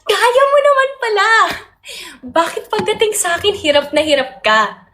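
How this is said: It is said in an upbeat, supportive tone. The listener is being encouraged. "Paano ba supportive?"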